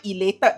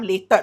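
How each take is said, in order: First: The word is said with its first syllable. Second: The word is said without its first syllable. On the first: The speaker calls it right. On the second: The speaker calls it wrong.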